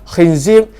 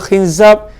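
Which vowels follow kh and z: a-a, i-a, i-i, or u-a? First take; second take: i-i; i-a. First: The vowels are i, then i. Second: The vowels are i, then a. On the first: "kha dengan zai baris bawah" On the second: "nama dia khinzab"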